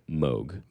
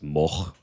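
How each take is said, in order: First: The name has a North American pronunciation. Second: The name has the original Dutch-style pronunciation. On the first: This is the common local way to say it. "the general pronunciation for like North American dialects" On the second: This is the family's original way to say it. "originally it was Moog"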